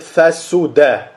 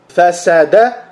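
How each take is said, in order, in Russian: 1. Во втором слоге гласная «у». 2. Во втором слоге гласная «а». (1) "так и с даммой" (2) "как с фатхой"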